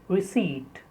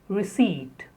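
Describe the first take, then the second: The two takes are said the same way.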